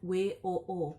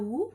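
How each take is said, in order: First: Each letter is said separately by name. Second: It is said as a single short word. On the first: "biasa disingkat dengan W O O" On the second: "Atau boleh juga dibaca W U"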